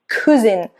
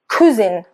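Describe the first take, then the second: Both takes have the same delivery.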